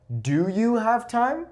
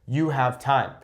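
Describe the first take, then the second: First: High, slow climb through "have time"; drawn-out question, pitch sweeping up to "time"; question intonation. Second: "time" falling at the end; a settled statement, pitch down on "time"; statement intonation. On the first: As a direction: ask it slowly, voice rising high on "time". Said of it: "But now I'm saying". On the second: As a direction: state it, letting "time" drop. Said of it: "I'm saying a statement". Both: Shown as a demonstration.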